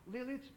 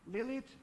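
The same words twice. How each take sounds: The two takes are said the same way.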